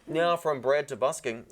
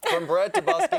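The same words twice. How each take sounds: First: Talking through a mouthful of bread; mouth full. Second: Laughing through the line. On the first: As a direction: say it while still chewing. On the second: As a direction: burst out laughing while saying it. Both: Real, not acted. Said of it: "I can't do this with a full mouth".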